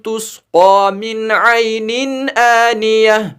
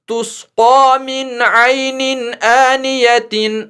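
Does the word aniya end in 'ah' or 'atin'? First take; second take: ah; atin. First: The word ends in 'ah', followed by a stop. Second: The word ends in 'atin', running straight on. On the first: The reader stops at this word. "यहां पे रुक गए इसलिए इसको आनियतिन नहीं पढ़ा बल्कि आनियह पढ़ा" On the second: The reader continues without stopping. "इस तीन को फिर तीन ही पढ़ेंगे"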